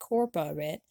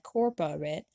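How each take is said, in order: First: The word is said with three syllables. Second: The word is said with three syllables.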